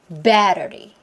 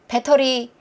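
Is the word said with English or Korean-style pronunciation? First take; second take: English; Korean. First: It has a long stressed first syllable. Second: It is said with flat Korean-style syllables. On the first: The speaker calls it right. "다라라" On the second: The speaker calls it wrong. "왠지 이렇게 소리를 내야 될 것 같은 느낌이 든단 말이죠"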